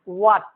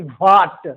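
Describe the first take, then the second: First: It starts with a plain w sound. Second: It starts with a breathy h sound. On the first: The speaker calls it right. "वाट न कि वाट" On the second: The speaker calls it wrong. "न कि वाट"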